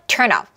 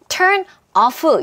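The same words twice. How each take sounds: First: The two words are linked like one word. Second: The two words are said separately. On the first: The speaker calls it right. "이렇게 소리를 내는구나" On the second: The speaker calls it wrong. "이렇게 하지 않고"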